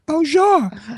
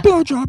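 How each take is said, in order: First: The name is said with a French pronunciation. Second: The name is said with an American pronunciation.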